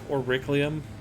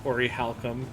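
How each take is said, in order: First: The third syllable sounds like 'cli'. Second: The third syllable sounds like 'chal'. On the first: A childhood misreading of the word. The speaker calls it wrong. "used to call that like Auriclium" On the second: The word as it is actually pronounced. The speaker calls it right. "literally called it Orichalcum"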